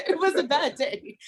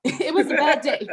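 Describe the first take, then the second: First: Said in the usual way. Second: Laughing. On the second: Real, not acted. Laughing while recalling the day.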